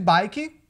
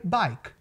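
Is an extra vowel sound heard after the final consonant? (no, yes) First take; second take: yes; no. First: An extra vowel sound follows the final consonant. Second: The word ends cleanly on the final consonant. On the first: The speaker calls it wrong. "E ao invés de bike" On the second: The speaker calls it right. "o correto seria bike"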